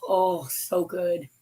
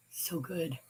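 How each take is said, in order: First: Savoring. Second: Softly to herself; quiet echo. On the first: Savoring the pretzels. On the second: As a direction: let so good fade away. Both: Real, not acted.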